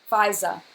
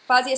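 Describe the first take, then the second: First: The first syllable sounds like the word 'five'. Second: The first syllable has a short 'fah' vowel. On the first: The speaker calls it right. "like number five with a za" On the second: The speaker calls it wrong. "I don't want to say Fazia over and over, and that's wrong"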